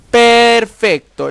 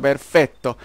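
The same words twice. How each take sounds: First: "Perfecto" stretched very slowly, loud and high; "Perfecto" as a long, raised-pitch exclamation; exasperated PERFECTO. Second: Said in the usual way. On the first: Real, not acted. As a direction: drag out "Perfecto" in loud frustration. Frustrated, sarcastic repeat.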